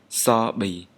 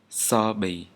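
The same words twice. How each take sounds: First: The first consonant is an 's' sound. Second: The first consonant is an 's' sound.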